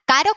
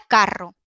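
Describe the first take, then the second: First: Caro with a single tapped R; short tapped R in caro. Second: Carro with a strong trilled double R; rolled RR. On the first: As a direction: say caro with one quick flick of the tongue. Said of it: "Suena caro". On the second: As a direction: roll the RR in carro. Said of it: "Suena caro, carro". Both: Shown as a demonstration.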